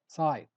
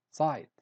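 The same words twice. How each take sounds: The two takes are said the same way.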